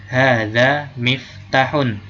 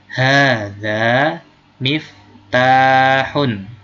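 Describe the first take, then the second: First: The vowel after the t is short. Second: The vowel after the t is long. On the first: The speaker calls it wrong. "Jangan melafalkan tanya pendek. Hadza miftahun, salah" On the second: The speaker calls it right. "Harus panjang tanya"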